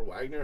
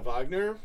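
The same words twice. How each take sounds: First: Wagner with a W sound, as in wagon; English-style Wagner. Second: Wagner with a V sound, Vahg-ner; German-style Wagner. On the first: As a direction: say Wagner as WAG-ner, starting on a W. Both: Shown as a demonstration. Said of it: "however you pronounce it".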